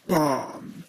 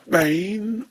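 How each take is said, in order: First: The vowel is a long 'ah' sound. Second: The vowel is a long 'ay' sound. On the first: "or barn" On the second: "you would either say bane"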